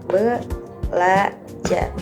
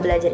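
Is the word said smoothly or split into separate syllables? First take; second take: split; smoothly. First: The word is broken into separate syllables. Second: The word is said smoothly as one unit.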